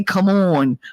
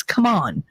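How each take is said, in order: First: "on" with a rounded AW, "awn"; mock "Come on" as "come AWN"; imitated pronunciation of "on". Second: "on" with an open AH, "come AHN"; corrective "on". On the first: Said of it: "You say, 'Come on.'". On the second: Shown as a demonstration. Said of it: "It's come on".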